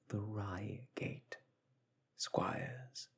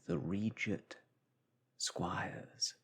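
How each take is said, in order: First: The first word sounds like 'Reigate'. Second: The first word sounds like 'Regent'. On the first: The speaker calls it right. "It is actually the Reigate Squires" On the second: The speaker calls it wrong. "I had known it in my youth as the Regent Squires. That, however, is incorrect"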